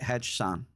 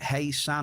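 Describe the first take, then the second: First: The J is sounded, giving hedge-san. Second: The J is silent, giving hey-san. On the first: "Do you pronounce the J or not?" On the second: "Do you pronounce the J or not?"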